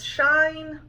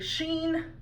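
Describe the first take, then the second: First: The vowel sounds like "eye". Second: The vowel sounds like "ee". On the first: The speaker calls it right. "Apparently it's Shine" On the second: The speaker calls it wrong. "sorry that I'm going to ruin this name because I say Sheen"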